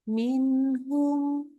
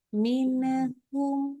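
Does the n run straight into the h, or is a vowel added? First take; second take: straight; vowel added. First: The n runs straight into the h. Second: A short "ne" vowel follows the n. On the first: The speaker calls it right. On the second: The speaker calls it wrong.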